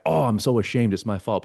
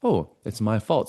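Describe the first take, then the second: First: Hammed-up guilt and shame; mock ashamed. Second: Slow, accepting admission of fault; matter-of-fact realization. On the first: Blaming self from a shame place, mock ashamed. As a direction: moan it as a put-on confession. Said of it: "Not from a guilt and shame place". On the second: Acted. Owning one's part without guilt, accepting realization. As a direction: own it without any shame, taking your time. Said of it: "But it's like".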